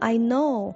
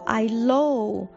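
First: The second word begins with an n sound. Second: The second word begins with an l sound. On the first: The speaker calls it right. "譬如说我知道了I know" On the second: The speaker calls it wrong. "他们就说I low"

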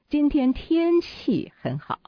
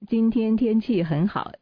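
First: The word 天气 is stressed. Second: No word is given special stress. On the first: "那重点又在天气了" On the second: "这是没有重点的"

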